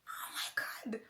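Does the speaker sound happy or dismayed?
happy. It sounds happy and excited.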